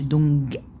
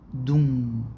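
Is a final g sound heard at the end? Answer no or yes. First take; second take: yes; no. First: A hard g sound is heard at the end. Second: No hard g sound is heard at the end. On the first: The speaker calls it wrong. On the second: The speaker calls it right.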